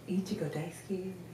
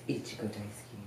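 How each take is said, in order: First: It is said in a put-on cute voice. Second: It is said in a put-on sexy voice.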